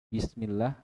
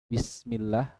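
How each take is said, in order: Both takes have the same delivery.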